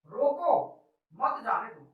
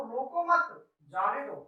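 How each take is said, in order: First: "रोको", comma pause, then "मत जाने दो" as one phrase; pause after रोको. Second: "रोको मत" slowly as one phrase, pause, then "जाने दो"; pause after मत. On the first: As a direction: break right after "रोको", keep "मत" with "जाने दो". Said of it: "यहाँ पे अल्पविराम लगाते हैं". ("रोको" के बाद विराम, फिर "मत जाने दो") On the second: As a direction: join "मत" to "रोको" and break after it. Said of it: "हमारे बोलने का तरीका बदल गया". ("रोको मत" के बाद विराम, फिर "जाने दो") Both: Shown as a demonstration.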